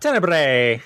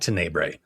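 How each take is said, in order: First: It is said in an exaggerated Italian accent. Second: It is said in a plain English accent.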